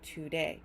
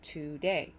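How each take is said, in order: The two takes are said the same way.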